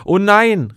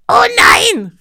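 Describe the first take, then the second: First: Loud, higher groan of dismay; the whole crowd crying out in shock. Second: High, loud panicked shriek; shrill witch's panic, much higher; panicked cry. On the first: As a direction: collective cry, less shrill than the panic. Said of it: "riefen alle". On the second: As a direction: scream it out in sudden panic. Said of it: "rief sie panisch". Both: Acted.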